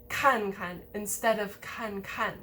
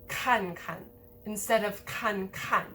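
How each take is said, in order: The two takes are said the same way.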